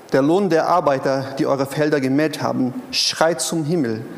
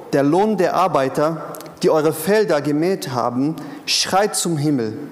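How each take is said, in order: The two takes are said the same way.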